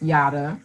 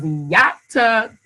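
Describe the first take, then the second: First: The middle consonant sounds like a D. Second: The middle consonant sounds like a T. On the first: This is how others often say the name. The speaker calls it wrong. "which is the American way" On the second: This is how the name's owner says it. The speaker calls it right. "my name with a neck"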